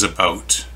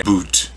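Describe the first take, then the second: First: "about" with an ow diphthong, not oo; real Canadian pronunciation. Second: "boot" with a long oo, standing in for about. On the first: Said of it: "It's always about". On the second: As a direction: mimic the mistaken oo vowel in "boot". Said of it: "never heard anyone in Canada say boot". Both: Shown as a demonstration.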